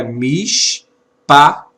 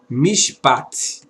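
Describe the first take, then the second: First: "mishpat" broken into mish, pa and a separate final t; sounded-out word. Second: "mishpat" run together as one word; joined-up reading. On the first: Teacher assembling the expression for students, "mishpat" said in separated sounds. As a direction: spell out "mishpat" slowly, piece by piece. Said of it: "Então a expressão é". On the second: Teacher giving students the finished reading, "mishpat" said as a whole word. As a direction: blend "mishpat" smoothly, mish straight into pat. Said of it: "Essa é a leitura". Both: Shown as a demonstration.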